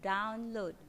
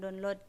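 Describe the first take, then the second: First: The stress is on the first syllable. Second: The stress is on the second syllable. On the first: The speaker calls it right. "Jadi ada penekanan depannya" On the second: The speaker calls it wrong. "bukan download gitu"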